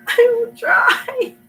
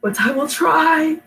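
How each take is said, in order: First: Very slow and much higher, laughing through tears; laughing crying. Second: Slow, higher, determined try; sick voice. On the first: Sick reader laughing at herself as she promises to try. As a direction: squeak it out half laughing, half crying. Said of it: "pathetically ecstatic and crying". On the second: Sick reader promising viewers she'll still try. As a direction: push through a sick voice. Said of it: "me sounding like this". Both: Real, not acted.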